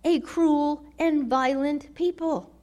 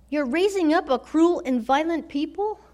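First: Said in the usual way. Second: Rising, disbelieving question to God; understated outrage, can't believe it; incredulous question. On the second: Acted. Habakkuk questioning God's plan.

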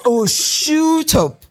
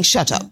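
First: "shoot up" said slowly with a long oo, in a higher Mancunian voice; the Mancunian guy telling her "shoot up" in his accent; Manchester "shut up". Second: Said in the usual way. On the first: Retold or imitated. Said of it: "Manchester accents". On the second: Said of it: "He was saying".

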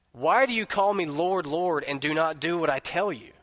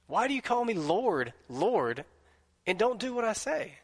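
First: Said in the usual way. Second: Pleading echo. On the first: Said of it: "this question that Jesus asks". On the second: Shown as a demonstration. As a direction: ask it again as if Jesus is pleading. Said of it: "preacher repeats Jesus' question".

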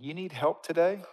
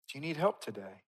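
First: TODAY lifted at the end, asking; rising question. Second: Softer, with a falling end on TODAY; soft repeated question. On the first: Preacher asks the congregation, rising question on TODAY. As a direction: ask it higher, rising on TODAY. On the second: Preacher gently asks the congregation, soft falling question. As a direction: ask it quietly, letting TODAY fall. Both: Real, not acted.

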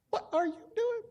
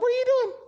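First: High but softer, bewildered; baffled. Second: Much higher, louder indignant cry; alarmed. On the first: Pastor asking the neighbour again, high, softer and bewildered. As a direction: ask it again, quieter and puzzled. Neighbour climbs into his boat. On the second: Pastor yelling at a neighbour who jumps into his boat, high and loud. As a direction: yelp it at the intruder. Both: Retold or imitated.

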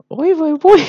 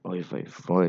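First: High, loud mock wail; exaggerated squeal. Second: Said in the usual way. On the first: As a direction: shriek it like a melodramatic aunt. Repeats exclamation, exaggerated. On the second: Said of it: "אני שמעתי את השפשוף הזה".

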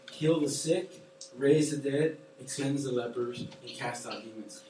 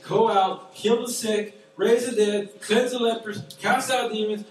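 First: Said in the usual way. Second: Louder, raised preaching call; proclaiming. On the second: Acted. Preacher sends the church out, louder proclaiming. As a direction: ring it out like a commission.

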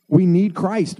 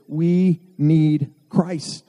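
First: Said in the usual way. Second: Drawn out, each word slow and weighty; slow emphatic. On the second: Real, not acted. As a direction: lean on "we need Christ" slowly, word by word. Preacher slows for emphasis.

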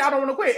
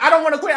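First: Softer echo. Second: Higher, louder tearful "I don't wanna quit"; crying plea. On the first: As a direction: repeat "I don't wanna quit" softer, at normal level. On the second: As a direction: beg "I don't wanna quit" through mock tears. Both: Retold or imitated. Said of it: "she starts crying because she's like".

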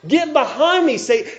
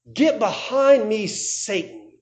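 First: Higher, louder, forceful "Get behind me, Satan"; louder rebuke. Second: A slow, grave reprimand, not shouted; stern rebuke. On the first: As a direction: throw the rebuke out hard and high. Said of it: "He's calling Peter by that name". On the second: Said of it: "Now what does he say?". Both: Retold or imitated.

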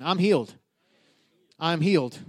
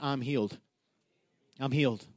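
First: Said in the usual way. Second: Calm, soft "I'm healed" said low and softer; quiet declaration. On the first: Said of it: "Say it again". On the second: Shown as a demonstration. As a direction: speak "I'm healed" softly, a quiet confession. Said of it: "just say that".

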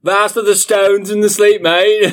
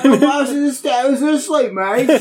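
First: High, loud hammed-up British reading; mock British accent. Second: Much higher hammed-up British echo; mock British accent. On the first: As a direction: read it like a cartoon Brit, much higher. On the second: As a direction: parrot the line like a silly Brit. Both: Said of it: "read in a British accent".

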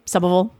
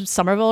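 First: "Somerville" with the R dropped, like "Summaville"; local Boston pronunciation. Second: Said in the usual way. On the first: Shown as a demonstration. Showing the family's hometown, "Somerville" in Boston pronunciation. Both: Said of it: "You're not saying it right".

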